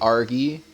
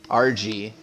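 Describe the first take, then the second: First: The name is said as one blended word. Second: The name is said as two separate letters. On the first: The speaker calls it wrong. "I said that wrong all last season" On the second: The speaker calls it right. "Let's hope to get it right this season"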